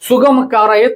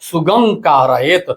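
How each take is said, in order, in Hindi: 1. k से पहले की नासिका ध्वनि होंठ वाला 'm' है। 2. k से पहले की नासिका ध्वनि कंठ वाला 'ng' है। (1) "लोग बोलते हैं प्रार्थना में" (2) "शुद्ध उच्चारण है"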